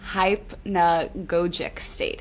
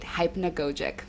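First: "Hypnagogic" sounded out slowly, syllable by syllable: hyp-na-go-jik; careful pronunciation. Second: Said in the usual way. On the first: Real, not acted. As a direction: attempt "Hypnagogic" very slowly and deliberately. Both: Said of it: "let's see if I can say it".

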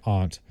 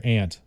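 First: "aunt" with an open ah vowel; aunt as "ahnt". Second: "aunt" said like the insect ant. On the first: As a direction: say "aunt" to rhyme with "font". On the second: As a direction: say "aunt" with the vowel of "cat". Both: Shown as a demonstration. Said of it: "or, like, aunt".

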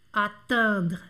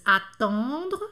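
First: Attendre with a spread smiling in nasal. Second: Attendre with a round on nasal. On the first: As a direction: smile through the nasal of attendre. (attendre com nasal sorriso) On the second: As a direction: round the first vowel of attendre. (attendre com on redondo) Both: Shown as a demonstration. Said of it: "agora vamos fazer os dois".

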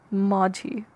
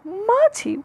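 First: Said in the usual way. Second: Majhi thrown back high, in disbelief; mock-baffled Majhi; incredulous echo. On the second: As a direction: repeat Majhi as a baffled, higher question. Incredulous echo of dialect name.

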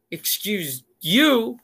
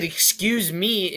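First: "Excuse you?" slow and snippy, stressing "you"; sassy retort. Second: "Excuse me." drawn out slowly and pointedly; pointed, slow and cool. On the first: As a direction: throw it back at him. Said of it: "And she was like". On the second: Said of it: "or I said". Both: Retold or imitated.

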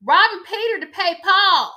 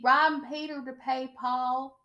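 First: Loud, high-pitched exaggerated imitation; hammed-up, high and loud quote; Sutton impression. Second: More restrained mimicry, evenly pitched; toned-down imitation, no shouting; Sutton impression. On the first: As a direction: belt it out as an overblown mimicry. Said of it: "in words of Satan". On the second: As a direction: imitate her with a level, measured delivery. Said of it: "That's how she sounds".

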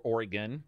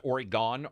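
First: "Oregon" with a reduced "gun" ending; variant state-name pronunciation. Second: "Oregon" with a full "gone" ending; variant state-name pronunciation. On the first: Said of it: "people pronounce it Oregon or". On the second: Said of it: "people pronounce it". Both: Shown as a demonstration.

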